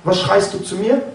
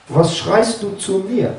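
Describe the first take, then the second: First: Said in the usual way. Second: "schreist" dragged out slowly with a falling tune; God's slow, deliberate rebuke to Moses; slow, weighty rebuke. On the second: Retold or imitated. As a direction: repeat it slower, leaning hard on "schreist". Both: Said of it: "Und dann sagt Gott".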